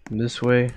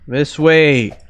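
First: Said in the usual way. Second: Loud call to teammate. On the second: Real, not acted. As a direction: shout it across the map. Calling teammate louder.

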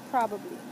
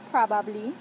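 First: "probably" as PRAH-buh-blee, falling at the end; "probably" pronounced prah-buh-blee; everyday "probably". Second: "probably" as PRAH-bab-lee, full middle vowel, rising; "probably" pronounced prah-bahb-lee; Saint Croix "probably". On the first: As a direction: say "probably" with a weak middle vowel. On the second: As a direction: say "probably" with a clear "bab", loud and lifted. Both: Shown as a demonstration. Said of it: "in my accent".

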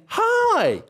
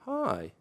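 First: Cheery greeting pitched way up; bright high hi. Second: Dull deflated greeting; flat soft hi. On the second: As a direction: let the hi drop, soft and flat. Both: Shown as a demonstration. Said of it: "There's a difference between me saying".

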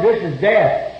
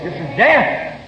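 First: Said in the usual way. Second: "This is death" slow, every word weighted; solemn repeat. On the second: Shown as a demonstration. Preacher echoing his own reply to the drunk women, slow and grave. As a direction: let "death" land slowly and heavily.

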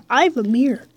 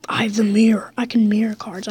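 First: Said in the usual way. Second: Secretive whisper. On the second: Real, not acted. Gamer whispers his secret card plan.

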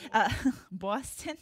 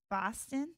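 First: Laughing Boston try. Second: Boston said as "Pahston" in a mock Boston accent; a quick, half-hearted Boston accent on "Boston"; tentative mock Boston accent; bad Boston accent. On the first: Pretend. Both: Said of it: "working on my bad Boston accent".

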